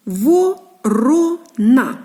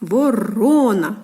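First: "Ворона" very slowly in three separate syllables. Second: "Ворона" joined up, middle syllable drawn out; stress on second syllable. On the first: Teacher showing three syllables to children, "Ворона" piece by piece. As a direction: chop "Ворона" into syllables with clear pauses. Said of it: "Три склади". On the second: Teacher showing where stress falls, "Ворона" with long middle syllable. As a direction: lean slowly on the "ро" in "Ворона". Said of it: "падає наголос на другий склад". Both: Shown as a demonstration.

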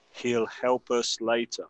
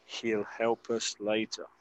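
First: Slow model. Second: Soft repeat. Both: Shown as a demonstration. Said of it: "escuchar la pronunciación".

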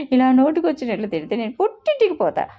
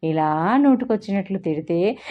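First: Huffy threat. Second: Said in the usual way. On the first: A narrator's reading. Wife storms off threatening.

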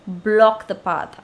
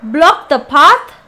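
First: Said in the usual way. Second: Puzzled reading. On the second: Real, not acted.

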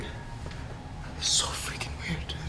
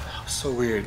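First: Slow, breathless whisper; slow spooked whisper. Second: Said in the usual way. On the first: Real, not acted. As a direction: whisper it so nothing hears. Spooked after hearing bangs.

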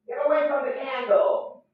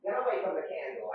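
First: Louder repeat. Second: Softer first warning. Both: Real, not acted.

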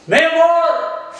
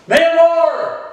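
First: High, carrying call to the next room; shouted call for Mamacita. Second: High call, pushed a bit louder; louder repeated call for Mamacita. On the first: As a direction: call her from across the house. Calling the wife from another room. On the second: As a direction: call her again, she didn't answer. Calling the wife again, louder. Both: Real, not acted.

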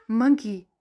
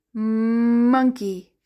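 First: Said in the usual way. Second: "Monkey" with a long hummed mmm at the start; stretched first sound. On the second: Shown as a demonstration. Teacher showing what M says, "Monkey" begun on a long mmm. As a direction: hold the M of "Monkey", then finish the word.

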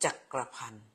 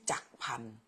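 First: จักรพันธ์ with "kra" sounded in the middle; อ่านสามพยางค์. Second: จักรพันธ์ with no "kra" in the middle, just jak-phan; อ่านสองพยางค์. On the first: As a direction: say จักรพันธ์ as three syllables, jak-kra-phan. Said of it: "เขาจะอ่านว่าจักรพันธ์". (ออกเสียง จักรพันธ์ ว่า จัก-กระ-พัน) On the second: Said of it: "อยากออกสองเสียง สองพยางค์". (ออกเสียง จักรพันธ์ สองพยางค์ว่า จัก-พัน) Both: Shown as a demonstration.

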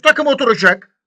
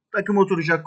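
First: High, loud promise that the team will click; excited shout. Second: Said in the usual way. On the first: Real, not acted. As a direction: belt it out with confidence. Hyping his new signing.

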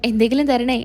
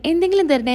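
First: Said in the usual way. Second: Higher, pleading call of എന്തെങ്കിലും; begging plea. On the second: Retold or imitated. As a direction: beg for a coin with a lifted എന്തെങ്കിലും. (എന്തെങ്കിലും ഉയർത്തി യാചിക്കുന്ന സ്വരം) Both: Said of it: "എന്ന് പറഞ്ഞ് പറഞ്ഞ്".

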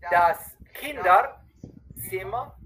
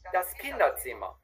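First: Kinderzimmer drawn out, rising at the end; slow, clear model take. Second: Normal quick speed, falling tune; quick follow-up take; quick natural take. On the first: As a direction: stretch every sound so the learner hears it. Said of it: "una vez bien despacito, bien claro". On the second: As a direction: say it as natives would. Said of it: "y la otra vez rapidito". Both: Shown as a demonstration.

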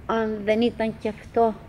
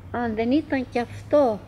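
No difference in how they are said.

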